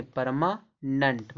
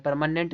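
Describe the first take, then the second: First: Slow "परमानेंट", split as parma-nunt; "परमानेंट" ending in uh-nt; correct pronunciation. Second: "परमानेंट" with a clear -nent; rejected "परमानेंट", full e before nt; wrong pronunciation. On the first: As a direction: say "परमानेंट" slowly with a weak last vowel. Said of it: "परमानेंट नहीं". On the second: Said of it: "नहीं". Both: Shown as a demonstration.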